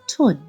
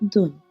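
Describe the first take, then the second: First: It is said in Eastern Armenian pronunciation. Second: It is said in Western Armenian pronunciation.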